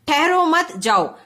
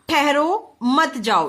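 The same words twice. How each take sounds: First: There is a pause after मत. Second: There is a pause after ठहरो.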